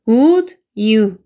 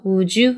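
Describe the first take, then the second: First: The d and y sounds stay separate. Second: The d and y blend into a 'j' sound. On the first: "would you인데" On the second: "드랑 you를 합쳐서 주 발음이 되기 때문에"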